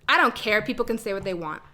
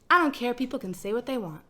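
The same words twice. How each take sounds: First: It is said in a snippy tone. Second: It is said in a relaxed tone.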